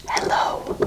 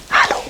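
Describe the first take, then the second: First: Hello with an open e and long o, the American way; whispered American hello. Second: Hallo with an open a, louder and voiced; voiced German hallo, not whispered. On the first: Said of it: "an American would say". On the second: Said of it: "in Germany we say". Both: Shown as a demonstration.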